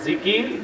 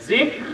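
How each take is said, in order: First: It has an extra vowel: two syllables. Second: It has no extra vowel: one syllable. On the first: This is the common everyday way of saying it. The speaker calls it wrong. "প্রচলিত উচ্চারণ আপনারা করেন" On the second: This is how it actually should be said. The speaker calls it right. "আসলে হলো"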